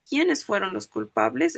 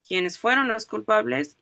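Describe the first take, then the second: First: "Quiénes fueron los culpables" asked as a question, rising at the end; question intonation. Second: "Quiénes fueron los culpables" said level, without a questioning lift; indirect question intonation. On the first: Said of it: "Es una pregunta". (entonación de pregunta en "Quiénes fueron los culpables", subiendo al final) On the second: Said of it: "aunque no esté en signos". ("Quiénes fueron los culpables" como pregunta indirecta, sin subir al final) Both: Shown as a demonstration.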